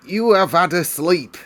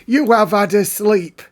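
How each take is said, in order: First: High, loud housekeeper voice, discarded take; an attempt at Mrs Medlock that misses; first try at Mrs Medlock. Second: Higher, louder, bossier housekeeper voice; Mrs Medlock retry. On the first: Narrator's rejected first try at Medlock, high and loud. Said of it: "That's not Missus Medlock's voice". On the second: Acted. Narrator retries Medlock waking Mary, high and loud. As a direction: try the housekeeper again, bigger. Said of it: "Let's try that again".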